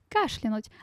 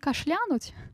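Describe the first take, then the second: First: The stress falls on the first syllable. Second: The stress falls on a later syllable. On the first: The speaker calls it right. "От слова кашель" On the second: The speaker calls it wrong. "Не кашлянуть"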